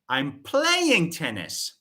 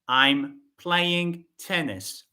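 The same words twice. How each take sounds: First: The verb is said louder than the rest. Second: No word stands out; the delivery is flat. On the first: "I'm shifting the focus on the verb play" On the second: "This sentence has no stress"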